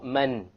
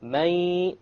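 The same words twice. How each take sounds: First: The final n is pronounced clearly and fully. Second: The n is dropped, leaving only nasal sound. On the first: The speaker calls it wrong. "Notice there is no man" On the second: The speaker calls it right. "you drop the noon sound. But you have a ghunnah, and that's the nasal sound"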